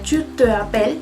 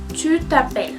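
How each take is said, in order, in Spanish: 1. La vocal de 'te' se pronuncia completa. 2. La vocal de 'te' se elide y se enlaza. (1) "no sería tu te appelles" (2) "mais tu t'appelles"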